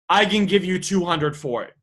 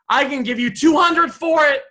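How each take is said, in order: First: It switches to a serious, steady tone. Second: It carries on the light, cheerful tone. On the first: The offer is meant seriously. The speaker calls it right. "new sentence, new feeling" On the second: The offer is not taken seriously. The speaker calls it wrong. "Awesome, comma"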